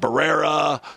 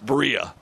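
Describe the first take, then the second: First: The name sounds like 'Barrera'. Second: The name sounds like 'Berea'. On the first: The speaker calls it wrong. "Some people are calling it Barrera" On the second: The speaker calls it right. "It's Berea"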